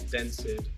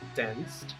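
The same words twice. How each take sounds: First: The -ed ending is said as an extra syllable. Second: The -ed ending adds no extra syllable. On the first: The speaker calls it wrong. "pronúncias bem comuns para o brasileiro" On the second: The speaker calls it right. "A pronúncia certa é"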